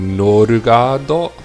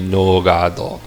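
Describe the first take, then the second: First: The name is said with four syllables, no-ru-ga-do. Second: The name is said with three syllables, no-ga-do. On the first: The speaker calls it wrong. "I guess you could do norugado, ... It doesn't flow well" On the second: The speaker calls it right. "I'm pretty sure it would just be nogado"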